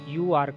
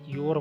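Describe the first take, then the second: First: Two separate full words are said. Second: The words merge into one short syllable.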